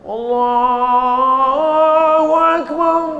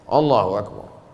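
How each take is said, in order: First: The phrase is drawn out long and slowly. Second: The phrase is said briefly, not drawn out.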